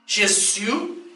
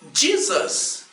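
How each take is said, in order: First: The name is pronounced the French way. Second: The name is pronounced the English way. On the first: "Os franceses dizem" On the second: "Os povos de língua inglesa dizem"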